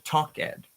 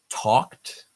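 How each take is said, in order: First: The ending is said as a separate syllable. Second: The ending adds no separate syllable. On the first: The speaker calls it wrong. "We never say" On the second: The speaker calls it right. "We typically only pronounce the D"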